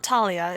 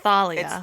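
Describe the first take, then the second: First: The name starts with a plain t sound. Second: The name starts with a th sound. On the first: The speaker calls it wrong. "It's not Talia" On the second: The speaker calls it right.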